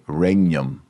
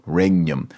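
First: The gn sounds like ny, as in onion. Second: The gn sounds like ny, as in onion.

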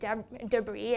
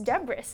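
First: The word ends without an s sound. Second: The word ends with an audible s sound. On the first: The speaker calls it right. "my classmate pronounced it debris" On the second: The speaker calls it wrong. "don't you see the S?"

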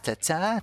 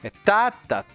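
First: The stress is on the second syllable. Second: The stress is on the first syllable. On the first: "Essa é o iâmbico que eu falei" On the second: "Troquel é ao contrário, é uma tônica e uma átona"

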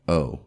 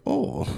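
First: It is a plain, ordinary 'oh'. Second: It is an exaggerated, accented, drawn-out 'oh'.

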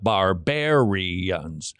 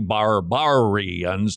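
First: The second syllable sounds like 'bare'. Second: The second syllable sounds like 'bar'. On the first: The speaker calls it wrong. "not barbarians" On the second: The speaker calls it right. "So it should be barbarians"

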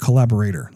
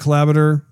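First: The word is articulated carefully, syllable by syllable. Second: The word is slurred and not fully articulated. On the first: The speaker calls it right. "I'm going to enunciate that a little bit better" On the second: The speaker calls it wrong. "Excuse me"

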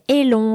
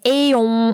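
First: An L sound links the two vowels. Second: The two vowels meet directly with no L. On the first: The speaker calls it right. "you can say élon or quillon. It's easier to pronounce" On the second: The speaker calls it wrong. "Instead of saying éon"

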